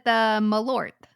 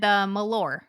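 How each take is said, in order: First: The final T is pronounced clearly and hard. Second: The final T is weak or left off. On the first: The speaker calls it right. "I said the Malort" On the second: The speaker calls it wrong. "you didn't pronounce that T nearly hard enough"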